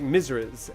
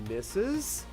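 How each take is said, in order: First: The word is said with an r sound. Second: The word is said without an r sound. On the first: "he was saying that it was Misriz, like Misriz" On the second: "And I said, "Missus""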